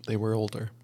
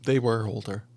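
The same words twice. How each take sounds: The two takes are said the same way.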